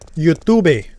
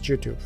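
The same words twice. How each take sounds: First: It begins with a Y sound. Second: It begins with a J sound. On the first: The speaker calls it right. "There you go" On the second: The speaker calls it wrong. "We pronounce the Y's like the J's"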